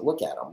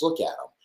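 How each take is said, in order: First: Said in the usual way. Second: Disgusted yell. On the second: Real, not acted. Yelling at the Zeke photo.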